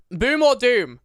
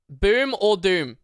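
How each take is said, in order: First: Louder ask. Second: Slow question. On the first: Streamer repeats poll to chat, louder and higher. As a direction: Boom or doom called out higher and louder. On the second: Streamer polls chat on his food, slow teasing ask. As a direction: Boom or doom drawn out slowly. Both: Shown as a demonstration.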